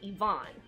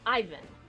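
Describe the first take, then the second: First: The name is said a non-American, foreign way. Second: The name is said the usual American way. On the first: "I automatically pronounce it" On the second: "here we pronounce it"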